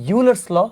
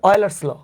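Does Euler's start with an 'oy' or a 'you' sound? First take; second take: you; oy. First: The name begins with a 'you' sound. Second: The name begins with an 'oy' sound. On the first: "অনেকে pronounce করে ইউলার্স ল" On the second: "কেউ বলে অয়েলার্স ল"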